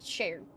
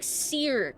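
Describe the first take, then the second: First: The name begins with an sh sound. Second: The name begins with a plain s sound. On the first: The speaker calls it right. "it's still sh okay" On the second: The speaker calls it wrong. "It's probably like Seer"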